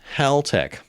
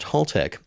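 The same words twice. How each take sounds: First: The first syllable sounds like the name Hal. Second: The first syllable does not sound like Hal. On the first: The speaker calls it right. "it's Haltech. Apparently it was started by a guy named Hal" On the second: The speaker calls it wrong. "it's not pronounced Haltech"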